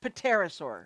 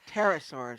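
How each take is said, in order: First: The word starts with a sounded P. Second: The word starts with a silent P. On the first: The speaker calls it wrong. "not not" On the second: The speaker calls it right. "it's a silent P. You don't say it"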